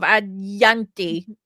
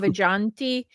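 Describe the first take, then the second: First: The middle consonant is a Y sound. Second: The middle consonant is a J sound. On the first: "he can't say J's" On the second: "it says like"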